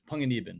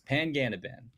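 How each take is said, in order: First: The name is said with a Filipino pronunciation. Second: The name is said with an Anglicized pronunciation. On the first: This is how the Filipino parent says it. "My dad, who's born and raised Philippines native" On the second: This is how the Irish parent says it. "The way my mom says it, who's Irish"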